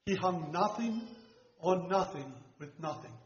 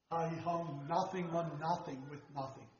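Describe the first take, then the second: First: Said in the usual way. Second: Put-on a soft, measured retelling of the old preacher's phrasing, not his full voice; imitating Rocklin. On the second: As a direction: lay the three nothings down quietly, like the preacher who first said it. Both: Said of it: "the way he said it".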